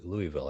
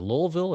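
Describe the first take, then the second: First: Louisville as "LOO-ee-vil", three syllables; Louisville said like "Louie-ville"; Louie-ville pronunciation. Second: Louisville squeezed to two syllables, "LOL-vil"; Louisville without the "ee" in the middle; local-style Louisville. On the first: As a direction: say Louisville with a clear "ee" in the middle. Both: Shown as a demonstration. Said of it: "how do they".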